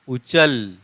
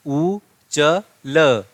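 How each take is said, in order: First: Said in the usual way. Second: उ च ल, each syllable slow and separate. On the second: Shown as a demonstration. Teacher sounding out उ च ल for students, slowly. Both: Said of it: "कैसे होने वाला है प्रोनाउंसिएशन?".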